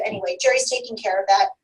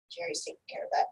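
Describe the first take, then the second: First: Said in the usual way. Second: Breathy whisper under the breath; whispered aside. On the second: Acted. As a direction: whisper it to yourself. Repeats line, second time whispered.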